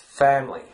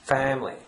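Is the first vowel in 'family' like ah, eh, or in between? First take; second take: in between; in between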